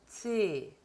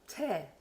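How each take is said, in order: First: Alveolar consonant with a closer, spread vowel. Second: Palatal consonant with a more open vowel. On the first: The speaker calls it right. "치 이렇게 해야 됩니다" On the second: The speaker calls it wrong. "채 이러시면 안 되고"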